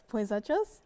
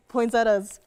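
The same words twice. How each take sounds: First: Poinsettias with a "ch" sound, ending "-chas", rising like a question; unsure alternative pronunciation. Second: Poinsettias ending in a plain "-tas", said loud and falling; trying a pronunciation. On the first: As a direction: try Poinsettias as "poin-SET-chas?", unsure. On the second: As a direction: say poinsettias firmly, with a t sound before the last vowel. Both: Real, not acted. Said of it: "How do you say it?".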